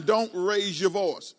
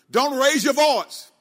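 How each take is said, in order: First: Said in the usual way. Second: Louder and higher, slow emphatic command; preacher's loud, slow admonition; raised voice. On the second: Real, not acted. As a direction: raise your voice and stretch each word out. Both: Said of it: "I'm raising my voice while I'm saying it".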